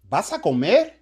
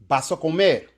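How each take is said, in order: First: It is said as a question. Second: It is said as a plain statement. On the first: It asks whether the listener is going to eat. "Y ahora la pregunta" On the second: It states that the listener is going to eat. "You're going to eat"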